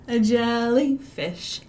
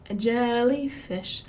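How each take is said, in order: Both takes have the same delivery.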